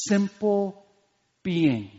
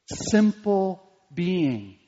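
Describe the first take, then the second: First: Said in the usual way. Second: Simple being drawn out very slowly; slow, weighty repetition; slow emphasis. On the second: Shown as a demonstration. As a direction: stretch each word of Simple being.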